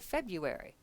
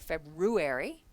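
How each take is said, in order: First: The first R sound is dropped. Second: The first R sound is clearly pronounced. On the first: The speaker calls it right. "We say February" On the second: The speaker calls it wrong. "We don't say that R. We don't say February"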